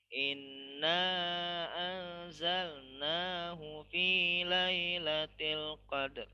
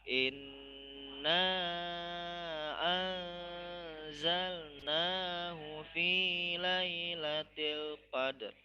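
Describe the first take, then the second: First: It is recited fast. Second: It is recited slowly.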